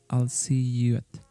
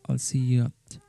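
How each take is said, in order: The two takes are said the same way.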